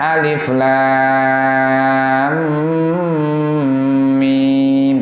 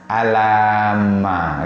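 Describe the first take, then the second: First: Each letter is said by its full name. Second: The letters are run together as one word. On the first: The speaker calls it right. "mestinya kan bacanya alif lam mim" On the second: The speaker calls it wrong. "tapi dia baca apa? Alama"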